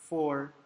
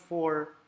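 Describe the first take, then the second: Both takes have the same delivery.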